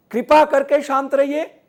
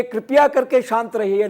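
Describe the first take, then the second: First: कृपा punched high in two syllables; stress on कृपा. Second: कृपया run quickly into करके, raised pitch; stress on कृपया. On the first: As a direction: give the corrected phrase, कृपा high and firm. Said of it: "कृपा करके कृपया मत बोलिए". (कृपा पर ज़ोर देकर सही प्रयोग) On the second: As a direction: cite the faulty phrase with कृपया up front. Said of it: "नहीं". (कृपया पर ज़ोर देकर गलत प्रयोग) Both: Shown as a demonstration.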